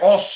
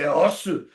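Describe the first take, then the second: First: The word ends on the s sound. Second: The word ends with a final u vowel. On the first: The speaker calls it wrong. "A lot of people say os. I go, oh, you're saying it wrong" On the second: The speaker calls it right. "So you say osu"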